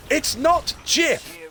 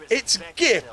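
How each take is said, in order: First: Much higher, slow mock gif; pronunciation argument. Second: Higher mock retort with gif; corrected pronunciation. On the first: Arguing how to say gif, slow high mock. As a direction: stretch out gif in mock protest. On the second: Arguing how to say gif, mock correction. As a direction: snap back with the other gif. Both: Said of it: "an argument of".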